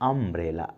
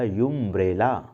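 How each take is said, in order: First: The word begins with an 'uh' sound. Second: The word begins with a 'yoo' sound. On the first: It takes the article an. The speaker calls it right. "इसका pronunciation यूम्ब्रेला नहीं है, अम्ब्रेला, आ अ" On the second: It would then take the article a. The speaker calls it wrong. "अगर इसे यूम्ब्रेला पढ़ा जाता"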